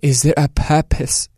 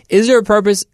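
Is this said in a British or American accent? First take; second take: British; American. First: It is said in a put-on British accent. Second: It is said in the speaker's normal accent.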